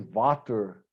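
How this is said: It is said with a German pronunciation. "They say"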